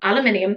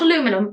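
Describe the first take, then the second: First: The word is said with five syllables. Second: The word is said with four syllables. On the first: This is how the speaker's own community says it. The speaker calls it right. "that's how we pronounce it" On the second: This is how others say it. The speaker calls it wrong. "not aluminum"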